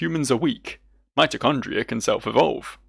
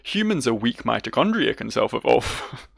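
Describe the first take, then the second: First: There is a clear pause after 'weak'. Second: 'Weak' runs straight into 'mitochondria' without a pause.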